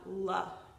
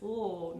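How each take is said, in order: First: The consonant is followed by an added uh sound. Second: The consonant is said alone with no vowel. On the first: The speaker calls it wrong. "not l" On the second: The speaker calls it right. "is l"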